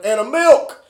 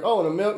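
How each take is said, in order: First: Higher and louder, insisting on the milk; mock shout. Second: Lightly surprised question rising on "milk"; a hint of a puzzled cashier. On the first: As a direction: yell the forgotten item back at her. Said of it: "and Still's like". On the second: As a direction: act mildly caught off guard. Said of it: "She's like".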